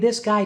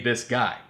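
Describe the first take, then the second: First: It is spoken in a high head voice. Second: It is spoken in a low chest voice. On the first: This is the voice needed to develop head voice. "You gotta learn how to be this guy too" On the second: This is the everyday speaking voice. "you can't always be this guy"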